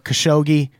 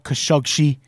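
First: The name is said in an anglicized way. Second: The name is said in an Arabic-style way. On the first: The speaker calls it wrong. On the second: The speaker calls it right.

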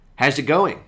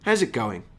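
First: The pitch stays up at the end. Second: The pitch falls at the end. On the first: It is a casual greeting, not a real question. "See if you can hear the difference" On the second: It is a genuine question about how they feel. "when I have that falling intonation, I let the listener know that this is a genuine question"

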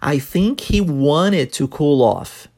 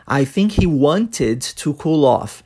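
First: The T sound in 'wanted' is dropped. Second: The T sound in 'wanted' is clearly pronounced. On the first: This is how people naturally say it. "omitirmos o som do T da palavra want" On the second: This is correct but rarely heard. "Ao invés de"

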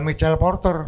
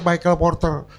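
First: The name is said with an Indonesian accent. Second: The name is said with an English accent. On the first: The speaker calls it wrong. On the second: The speaker calls it right. "yang benar"

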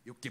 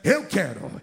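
First: It is said very softly and weakly. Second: It is said loudly with more force.

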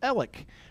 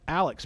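First: The name ends with a plain k sound. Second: The name ends with a ks sound. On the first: This is how the family says the name. "My family pronounces it Alec" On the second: This is how most people say the name. "The world pronounces that Alex"

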